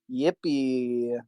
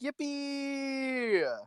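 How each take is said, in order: First: It is said without excitement. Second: It is said with excitement.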